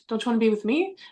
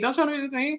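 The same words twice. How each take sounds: First: It sounds confused and questioning. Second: It sounds angry and frustrated.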